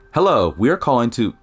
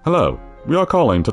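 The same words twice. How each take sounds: First: It is said in an ordinary speaking voice. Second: It is said in a funny put-on voice.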